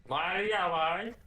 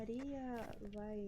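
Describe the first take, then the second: First: Higher, louder and slow; loud drawn-out call. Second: Slow drawn call. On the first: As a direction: belt her name out, stretched. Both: Acted.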